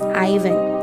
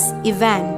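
First: The name is said the English way. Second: The name is said the Russian way. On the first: "in British and American English, it is pronounced as Ivan" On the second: "In Russia, Ivan is pronounced as Ivan"

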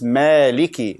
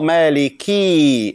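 First: The final vowel is kept short. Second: The final vowel is drawn out long. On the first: The speaker calls it right. "It's Maliki. There is a kasra only. Like short" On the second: The speaker calls it wrong. "By adding Ya. There is no Ya here. It's not Maliki"

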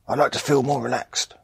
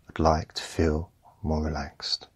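First: The sentence is said in a tense, pressing way. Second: The sentence is said in a calm, gentle way. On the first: The speaker calls it wrong. "isn't the way to say it" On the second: The speaker calls it right. "Say it as if you already are relaxed"

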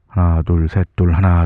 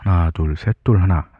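First: A low-pass filter strongly cuts the high frequencies. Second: A low-pass filter lightly dulls the high frequencies. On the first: "이번에는 더 낮춰보겠습니다. 로우 패스 필터는 이 정도까지 걸려요" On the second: "로우 패스 필터 한번 걸어보겠습니다"

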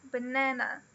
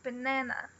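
The two takes are said the same way.

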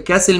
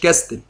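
First: The t sound is silent. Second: The t sound is pronounced. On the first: The speaker calls it right. "بتنطق كاسل" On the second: The speaker calls it wrong. "مش كاستل"

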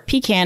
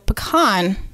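First: It is said the south Georgia way. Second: It is said in a general American way.

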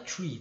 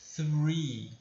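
First: The word begins with a plain t sound. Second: The word begins with the tongue between the teeth. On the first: The speaker calls it wrong. "Só que não é tree" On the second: The speaker calls it right. "no começo da pronúncia eu deixei a minha língua entre os dentes"

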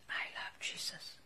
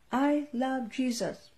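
First: The phrase is whispered very softly. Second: The phrase is shouted very loudly. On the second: "Then shout"

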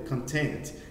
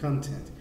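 First: The stress is on the second syllable. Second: The stress is on the first syllable. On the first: It means happy or satisfied. "E a outra é content" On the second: It means contents, what is inside something. "A força está no C-O-N"

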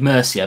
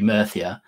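First: The middle consonant is an s sound. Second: The middle consonant is a th sound. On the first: "I want to say Mercia" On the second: "the proper way of saying it would be Mirthia"

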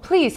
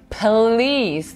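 First: It sounds light and polite. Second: It sounds strained and exasperated. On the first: It is an invitation. "Он сказал бы... Это было бы приглашение" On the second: He is asking her to calm down. "Но он говорит please. То есть он просит ее уже успокоиться"

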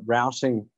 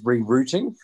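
First: It is said with American-style pronunciation. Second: It is said with British-style pronunciation. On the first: The speaker calls it wrong. "is the uh, American pronunciation" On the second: The speaker calls it right. "we, of course, uh, speak the Queen's English here"

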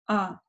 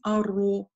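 First: The vowel after the r is unrounded. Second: The vowel after the r is rounded. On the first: The speaker calls it right. "Умеренное у нас открытие рта" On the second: The speaker calls it wrong. "не округляем, не говорим аро"

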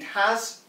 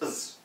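First: The word is said in full with a clear 'h' and vowel. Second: The word is said reduced to a short 'us' sound. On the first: "Every time you read has" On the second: "it's us"

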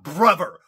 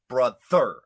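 First: The middle consonant is a 'v' sound. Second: The middle consonant is a 'th' sound. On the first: The speaker calls it wrong. "Not v. Not brother" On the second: The speaker calls it right.

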